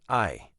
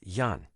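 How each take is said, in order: First: The word begins with a plain vowel. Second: The word begins with a 'y' sound. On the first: The speaker calls it wrong. "not I" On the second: The speaker calls it right. "The correct pronunciation of this word is yan"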